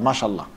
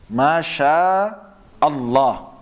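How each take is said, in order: First: Allah runs into Masha with no glottal catch. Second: A glottal catch separates Allah from Masha. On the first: The speaker calls it wrong. "It's actually wrong" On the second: The speaker calls it right. "That's the proper way of saying it"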